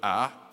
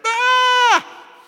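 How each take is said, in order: First: It is a quiet, calm sound. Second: It is a loud, alarmed cry.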